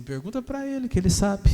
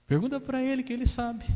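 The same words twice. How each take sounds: First: Higher, louder taunting demon voice; mocking demon. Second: Much higher, sneering demon voice; mocking demon. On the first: Demon taunting the pastor, louder and mocking. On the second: Demon mocking pastor about husband, much higher. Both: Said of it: "O demônio falou assim".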